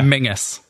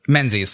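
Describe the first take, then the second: First: The name sounds like Mingus, with an ng sound. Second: The name sounds like Menzies, with a z sound. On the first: This is the traditional Scottish pronunciation. "it's very strongly Scottish. It's Mingus" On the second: This is the anglicized pronunciation used day to day. "how do you pronounce it? Menzies"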